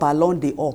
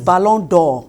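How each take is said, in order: First: An extra vowel sounds between the d and 'or'. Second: The d joins 'or' directly with no extra vowel. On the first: The speaker calls it wrong. "The pronunciation is not Ballon d'Or" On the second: The speaker calls it right. "when you cut the E, its pronunciation is Ballon d'Or"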